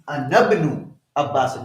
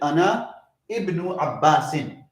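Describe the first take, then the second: First: The vowel starting ibnu is dropped and joined. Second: The vowel starting ibnu is pronounced separately. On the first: The speaker calls it right. "the correct way of reading this is" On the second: The speaker calls it wrong. "usually people read it"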